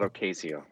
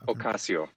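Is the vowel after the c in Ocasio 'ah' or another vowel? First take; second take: another vowel; ah. First: The a after the c is not 'ah'. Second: The a after the c sounds like 'ah'. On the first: The speaker calls it wrong. "not Ocasio" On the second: The speaker calls it right. "The Spanish A is ah"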